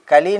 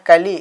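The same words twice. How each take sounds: The two takes are said the same way.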